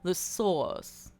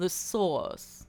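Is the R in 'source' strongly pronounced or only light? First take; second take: light; light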